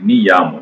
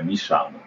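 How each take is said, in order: First: The double L sounds like a 'y'. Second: The double L sounds like a 'sh'. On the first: The speaker calls it wrong. "произносится не как е" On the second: The speaker calls it right. "Как ш произносит"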